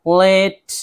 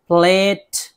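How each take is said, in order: No difference in how they are said.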